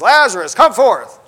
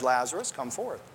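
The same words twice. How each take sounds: First: It is said loudly and forcefully. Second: It is said quietly and casually.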